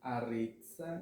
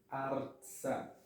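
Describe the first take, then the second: First: A short vowel separates the r and ts. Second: The r joins the ts with no vowel. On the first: The speaker calls it wrong. "não é aretza" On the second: The speaker calls it right. "e sim artsa"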